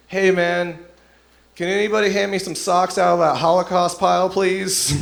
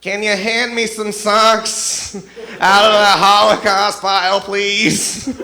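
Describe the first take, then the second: First: Raised, higher-pitched call across a room. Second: Very loud, high, drawn-out shout; exaggerated yelling. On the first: Acted. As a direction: call out a casual request, pitched up. Bunkmate calls into the laundry room. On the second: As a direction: bellow the request slowly, pitched way up. Bunkmate repeats offensive request even louder.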